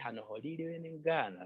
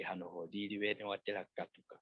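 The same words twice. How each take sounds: First: Higher, pressing on "ngana" with a firm fall; emphatic command. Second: Said in the usual way. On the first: Shown as a demonstration. Teacher showing a sleeper an urgent wake-up, stress on "ngana". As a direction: insist on "ngana" so they must get up now. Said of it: "you're putting much emphasis". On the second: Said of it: "there is less command when you say".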